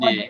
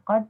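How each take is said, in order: First: The final consonant is released with an echoing bounce. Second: The final consonant is stopped plainly, without bounce. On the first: The speaker calls it wrong. "bukan kode" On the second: The speaker calls it right. "Kod bukan kode gitu ya"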